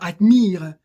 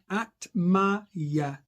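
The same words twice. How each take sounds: First: The i is a short vowel. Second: The i is a diphthong like the letter name. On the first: The speaker calls it wrong. "On ne dira pas admire" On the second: The speaker calls it right. "mais admire"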